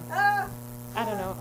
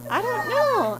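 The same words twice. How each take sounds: First: Very slow, resigned I don't know; slow deflated. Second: High, exasperated I don't know; frustrated outburst. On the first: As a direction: drag it out, giving up. Drawn-out deflated repeat. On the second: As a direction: throw up your hands, higher. Exclaims in frustration, then repeats slowly. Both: Acted.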